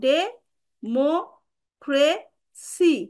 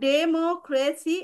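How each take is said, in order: First: Each syllable is said separately with pauses. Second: The word is said smoothly in one go.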